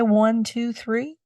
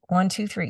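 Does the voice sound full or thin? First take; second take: full; thin. First: The voice sounds full and open. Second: The voice sounds thin and constricted. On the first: The speaker calls it right. "that's a whole lot better" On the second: The speaker calls it wrong. "you notice how thin my voice got"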